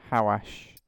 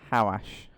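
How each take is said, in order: No difference in how they are said.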